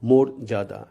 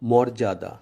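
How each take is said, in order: First: The first vowel is a closed 'o' sound. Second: The first vowel is an open 'aw' sound. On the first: The speaker calls it right. "সেহেতু এ শব্দটির উচ্চারণ মোরজাদা" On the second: The speaker calls it wrong. "বর্তমান বানানের লিখিত রূপ অনুযায়ী এ শব্দটির উচ্চারণ হয় মর্যাদা"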